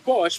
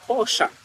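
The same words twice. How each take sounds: First: The name is said the American English way. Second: The name is said the German way. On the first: This is how English speakers say it. "when you say Porsche, people will like correct you" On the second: This is the correction others insist on. "Oh no, it's Porsche"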